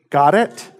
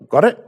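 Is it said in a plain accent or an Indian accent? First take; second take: plain; Indian. First: It is said in a plain, ordinary accent. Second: It imitates the Indian professor's accent.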